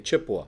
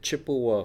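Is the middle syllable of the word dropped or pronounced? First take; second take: dropped; pronounced. First: The middle syllable is dropped. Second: All three syllables are clearly pronounced. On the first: The speaker is from the area. The speaker calls it right. "if you're from here, you just say Chippewa" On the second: The speaker is not from the area. The speaker calls it wrong. "you're not from around here because you pronounce it Chippewa Falls"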